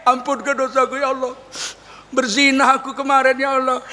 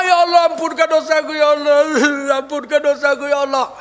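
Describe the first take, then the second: First: Pleading words that end in crazy laughter; acted unrepentant confession, laughing at the end; tearless mock prayer. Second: Acted weeping supplication; crying repentant prayer. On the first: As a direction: beg without crying, then cackle. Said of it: "nggak nangis, itu justru aneh". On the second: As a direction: wail for forgiveness, sobbing between phrases. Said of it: "menyesal dia".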